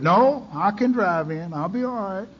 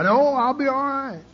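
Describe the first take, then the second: First: Said in the usual way. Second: High, breezy mock denial; "No, I'll be all right" as false cheer; mock bravado. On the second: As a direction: toss it off, pitched up. Mocking how alcoholics deny help.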